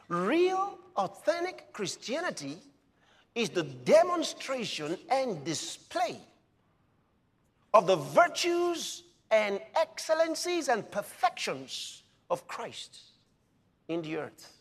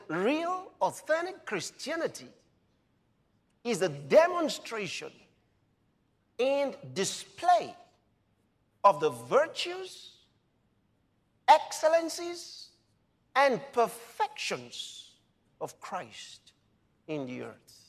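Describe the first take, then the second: First: It is said fast. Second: It is said slowly.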